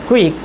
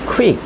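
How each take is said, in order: First: The first sound has no puff of air. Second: The first sound has a puff of air. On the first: The speaker calls it wrong. "যেটা আমরা বলি কুইক" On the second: The speaker calls it right. "সেটা আসলে হবে কুইক"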